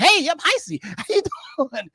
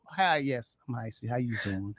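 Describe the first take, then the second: First: Much higher and louder, bubbly hello; too upbeat greeting. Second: Much softer and lower, subdued hello. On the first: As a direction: bounce in with full energy. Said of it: "you don't be like". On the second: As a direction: bring it down for the mourners. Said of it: "lower your voice". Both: Shown as a demonstration.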